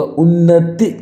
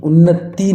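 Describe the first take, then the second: First: उन्नति cut short on "ti", higher; correct short final i. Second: उन्नति drawn out to "tee"; wrong long final i. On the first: Teacher gives the correct उन्नति, short final "i". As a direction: say उन्नति as "unnati". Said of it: "छोटी की मात्रा लगनी चाहिए". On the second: Teacher rejects this उन्नति, long final "ee". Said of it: "उन्नति नहीं होगा". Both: Shown as a demonstration.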